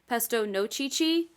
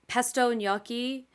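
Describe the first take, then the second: First: Gnocchi is said with a ch sound. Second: Gnocchi is said with a hard k sound. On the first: Someone else mispronounced the dish this way. The speaker calls it wrong. "and then said it wrong" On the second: This is the usual way to say the dish. The speaker calls it right. "I said it first"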